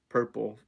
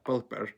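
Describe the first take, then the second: First: The middle consonant is a clear R sound. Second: The middle consonant is an L sound. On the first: "if I said like purple" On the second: "I would say something like pulpo, pulper"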